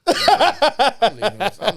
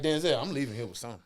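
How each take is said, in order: First: Loud and high, yelled out; shouting. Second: Said in the usual way. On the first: Retold or imitated. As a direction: belt it like a vow. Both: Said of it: "in my head".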